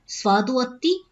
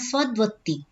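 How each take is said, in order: First: The parts are kept apart with a full vowel. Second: The parts are fused into one joined word. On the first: "अलग अलग कर लीजिए" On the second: "अन्यथा"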